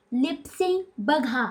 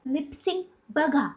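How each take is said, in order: First: लिप sync बघा drawn out slowly and softly, every syllable shaped; slow for lip reading. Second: Said in the usual way. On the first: Shown as a demonstration.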